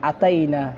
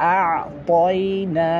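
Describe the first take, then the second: First: The middle syllable is said with an open 'taa' sound. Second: The middle syllable is said with a rounded 'to' sound. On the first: The speaker calls it wrong. "আমরা অনেকে বলি আতাই না, এগুলো কোনো কিছু হবে না" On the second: The speaker calls it right. "এই তটার দিকে আমরা অবশ্যই খেয়াল রাখবো"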